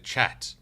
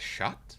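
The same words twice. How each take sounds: First: The word begins with a hard ch sound. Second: The word begins with a soft sh sound. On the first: The speaker calls it right. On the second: The speaker calls it wrong.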